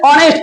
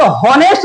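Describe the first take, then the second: First: ऑनेस्ट starting straight on the vowel; silent H. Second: हॉनेस्ट with the H sounded; mispronounced H. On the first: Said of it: "इसे ऑनेस्ट पढ़ते हैं". (ऑनेस्ट में 'ह' मौन, स्वर से शुरू) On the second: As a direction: say हॉनेस्ट with an audible h at the start. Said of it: "तो इसे हॉनेस्ट नहीं पढ़ेंगे". (हॉनेस्ट में 'ह' बोलकर गलत उच्चारण) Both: Shown as a demonstration.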